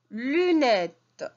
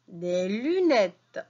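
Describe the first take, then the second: First: Emphatic repeat. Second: "Des lunettes" said slowly, each syllable drawn out; slow modelling. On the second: Teacher showing pupils the word "Des lunettes", said slowly. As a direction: stretch "Des lunettes" out for beginners. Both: Shown as a demonstration. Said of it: "teacher models word".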